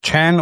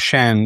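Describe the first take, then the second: First: The name begins with a ch sound. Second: The name begins with a sh sound. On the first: The speaker calls it wrong. "I was calling you Chan" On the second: The speaker calls it right. "It's pronounced Shan"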